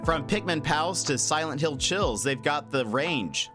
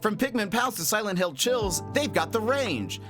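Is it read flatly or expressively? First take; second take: flatly; expressively. First: It is read flatly, without much expression. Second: It is read with lively, rhythmic expression.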